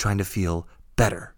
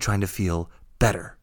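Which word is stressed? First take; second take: better; better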